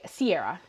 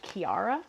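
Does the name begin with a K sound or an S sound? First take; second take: S sound; K sound. First: The name begins with an S sound. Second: The name begins with a K sound. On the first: This is the everyday Canadian way she uses. "is how I go by" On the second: This is the original European way of saying it. "supposed to be like something more close to Kiara"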